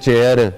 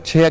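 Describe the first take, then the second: First: The first consonant is unaspirated. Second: The first consonant is aspirated. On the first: The speaker calls it wrong. "वो तो ठीक नहीं है ना" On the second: The speaker calls it right. "उसको आपको छेया कहना चाहिए"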